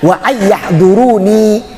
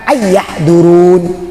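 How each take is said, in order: First: The word ends with a full 'ni' syllable. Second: The word ends on a bare 'n' sound. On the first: This is the original full form. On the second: This is the form used when stopping at the word. "karena diwakafkan"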